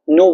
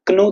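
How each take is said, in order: First: नो starting on n, no k; silent k. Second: कनो with the k sounded; wrong sounded k. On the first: Teacher giving students the right way. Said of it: "नो बोलते हैं". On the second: Teacher showing students the wrong way. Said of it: "कनो तो नहीं बोलते". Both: Shown as a demonstration.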